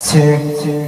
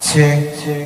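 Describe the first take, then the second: Both takes have the same delivery.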